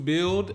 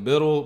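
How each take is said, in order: First: It is said like the word build. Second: It is said with two syllables, like biddle. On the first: The speaker calls it right. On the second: The speaker calls it wrong.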